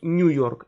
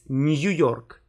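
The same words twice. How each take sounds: First: The vowel is said as one single sound. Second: The vowel is said as two sounds, y-glide first. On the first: The speaker calls it wrong. "It's not New York" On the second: The speaker calls it right. "you always pronounced them with two sounds"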